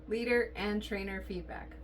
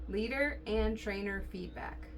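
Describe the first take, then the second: The two takes are said the same way.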